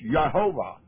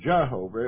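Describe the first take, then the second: First: The name begins with a Y sound. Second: The name begins with a J sound. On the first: The speaker calls it right. "it was Jehovah" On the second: The speaker calls it wrong. "it wasn't Jehovah"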